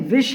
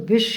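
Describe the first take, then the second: First: The word begins with a v sound. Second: The word begins with a b sound. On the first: The speaker calls it right. "विष है" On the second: The speaker calls it wrong. "विष शब्द नहीं है"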